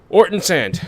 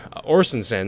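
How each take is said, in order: First: Orton Sand, said with a T as "Orton"; wrong name. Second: Orson Sand, said with an S as "Orson"; corrected name. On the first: Gamer misreading the suspect's name as "Orton". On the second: Gamer correcting himself to "Orson" Sand. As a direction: fixes it to "Orson". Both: Shown as a demonstration. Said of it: "not Orton".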